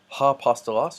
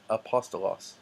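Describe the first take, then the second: First: The word begins with an h sound. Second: The word begins directly with a vowel. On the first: The speaker calls it wrong. "this smooth breathing mark does not make a an H sound, so it's not ha-apostolos" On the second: The speaker calls it right. "but Iesus and apostolos"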